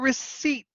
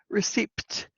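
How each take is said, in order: First: The P sound is silent. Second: The P sound is pronounced. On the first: The speaker calls it right. "So it's the P that is silent" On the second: The speaker calls it wrong. "you know how a lot of people pronounce it?"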